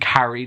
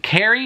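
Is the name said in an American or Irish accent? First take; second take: Irish; American. First: The name is said with an Irish accent. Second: The name is said with an American accent. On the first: "Carrie just makes more sense for me to say as an Irish person" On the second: "I feel like I'm putting on an American accent to say"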